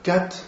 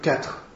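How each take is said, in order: First: The final R sound is dropped. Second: The final R sound is pronounced. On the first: This is the quick spoken form. "oralement on dit beaucoup plus cat" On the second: This is the careful full form. "vous faites très attention à dire quatre"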